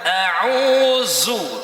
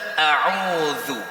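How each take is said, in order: First: The dh sound is a plain z sound. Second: The dh sound has the tongue between teeth. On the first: The speaker calls it wrong. "kalau masih baca ta'awudz dengan a'udzu jelas salah" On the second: The speaker calls it right. "Seperti kita baca a'udzu"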